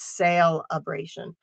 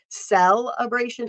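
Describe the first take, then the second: First: The first syllable sounds like 'sale'. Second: The first syllable sounds like 'sell'. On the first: The speaker calls it right. "I'm trying to very enunciate the sale part of that" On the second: The speaker calls it wrong. "it's not celebration"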